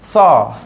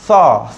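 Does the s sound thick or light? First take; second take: thick; thick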